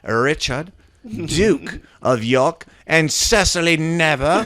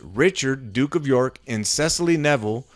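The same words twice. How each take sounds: First: It is read in a put-on old English accent. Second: It is read in a normal modern accent.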